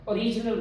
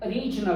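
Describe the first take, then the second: First: ओरिजिनल opening on a full round O; mispronounced full O. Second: ओरिजिनल said uh-RIJ-nul; reduced first vowel. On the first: Teacher shows common error, full O in ओरिजिनल. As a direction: start ओरिजिनल with a clear OH. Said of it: "ओरिजिनल नहीं है". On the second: Teacher corrects it, reduced first vowel in ओरिजिनल. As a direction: open ओरिजिनल on a faint uh, hit RIJ. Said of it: "ओरिजिनल बोलते हैं". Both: Shown as a demonstration.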